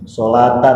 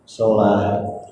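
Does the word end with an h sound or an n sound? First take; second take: n sound; h sound. First: The word ends with a full 'tan' sound. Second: The word ends with a stopped 'h' sound. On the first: The reading continues without stopping. "Tak marbutohnya fathah tain, tanwin" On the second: The reader stops at this word. "maka tanwinnya ini harus jadi ha, jadi bacanya sholat"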